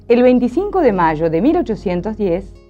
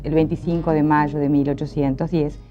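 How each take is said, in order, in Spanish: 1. El tono sube y baja de forma expresiva. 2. El tono se mantiene plano y monótono todo el tiempo. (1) "La idea es tener melodías expresivas" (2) "esto sería una melodía sumamente monótona y además aburrida"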